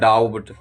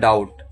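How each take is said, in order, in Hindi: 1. b की ध्वनि बोली जाती है। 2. b की ध्वनि साइलेंट है। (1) "लेकिन कुछ लोग पढ़ते हैं डाउट, तो ये गलत है" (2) "जब टी से पहले बी हो तब साइलेंट होता है"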